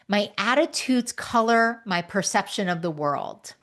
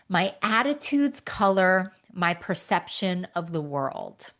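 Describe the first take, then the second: First: It is read at a normal pace. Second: It is read more slowly.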